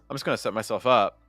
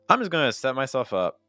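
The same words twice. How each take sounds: First: The stress falls on the word set. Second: The stress falls on the word I'm. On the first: "or to set" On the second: "I would either consider stressing to s- I'm or to set or both"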